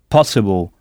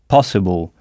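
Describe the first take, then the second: The two takes are said the same way.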